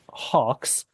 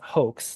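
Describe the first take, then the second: First: The vowel sounds like 'aw'. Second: The vowel sounds like 'oh'. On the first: The speaker calls it wrong. "not hawks" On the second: The speaker calls it right. "It should be read out as hoax"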